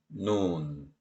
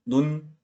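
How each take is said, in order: First: Second 눈 drawn out as 누운; long vowel. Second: First 눈 said short; short vowel. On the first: Teacher recalling snow versus eye, long 눈. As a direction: hold the vowel of 눈, pitch low. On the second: Teacher recalling eye versus snow, short 눈. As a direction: keep the vowel of 눈 brief. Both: Shown as a demonstration. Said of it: "장음을 단음으로 소리내서".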